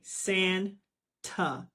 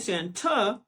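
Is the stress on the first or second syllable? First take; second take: first; second. First: The stress is on the first syllable. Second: The stress is on the second syllable. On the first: The speaker calls it right. "We say Santa. So this one is lazy" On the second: The speaker calls it wrong. "if we say Santa, this one would be stressed"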